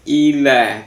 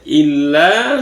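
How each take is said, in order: First: Ila with a short, undoubled l; single light l. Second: Illa with the l clearly held; firm doubled l. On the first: Teacher contrasting two words, ila with single l. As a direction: glide through ila without holding the l. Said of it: "illa sama ila". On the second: Teacher contrasting two words, illa with firm long l. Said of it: "Tolong dipertegas ya". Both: Shown as a demonstration.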